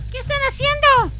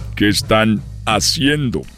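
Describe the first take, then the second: First: It is said in a put-on child's voice. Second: It is said in his normal adult voice.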